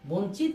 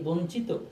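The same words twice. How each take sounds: First: The word ends on a bare consonant. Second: The word ends with an 'o' vowel sound. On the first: The speaker calls it wrong. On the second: The speaker calls it right.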